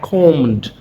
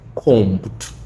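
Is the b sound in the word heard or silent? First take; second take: silent; heard. First: The b sound is silent. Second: The b sound is clearly pronounced. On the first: The speaker calls it right. "I combed my hair" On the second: The speaker calls it wrong. "not combed"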